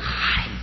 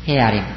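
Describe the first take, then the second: First: The article is said with an a vowel. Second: The article is said with an e vowel. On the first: The speaker calls it wrong. "하하림 힘든데" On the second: The speaker calls it right. "해아림 쉽죠"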